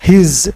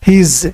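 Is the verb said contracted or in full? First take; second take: contracted; contracted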